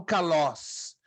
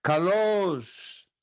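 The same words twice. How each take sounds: First: "calós" with a short open o; acute accent version. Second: "calosh" with a long closed o, falling; circumflex, prolonged. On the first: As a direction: say "calós" briefly, without stretching the o. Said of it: "não calós". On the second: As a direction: draw out the o in "calosh". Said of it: "não calós, calosh". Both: Shown as a demonstration.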